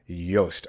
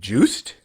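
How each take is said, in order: First: The name begins with a Y sound. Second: The name begins with a J sound. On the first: The speaker calls it right. "so it is the like Y sound to the J" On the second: The speaker calls it wrong. "a lot of people look at it probably think like juiced"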